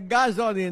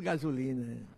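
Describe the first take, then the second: First: The second vowel sounds like 'o'. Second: The second vowel sounds like 'u'. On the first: The speaker calls it right. "Não tem um nessa palavra. É gasolina" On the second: The speaker calls it wrong. "O povo chama tudo gasolina"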